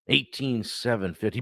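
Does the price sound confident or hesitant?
hesitant. The price is stated hesitantly, with hedging. The price is uncertain and open to negotiation. The speaker calls it wrong. "completely different energy"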